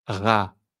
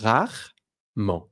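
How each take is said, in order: First: "rarement" as ra-re-ment; three syllables. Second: "rarement" as rar-ment, slow; two syllables. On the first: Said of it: "pronounce it in three syllables". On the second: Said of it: "or in two syllables". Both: Shown as a demonstration.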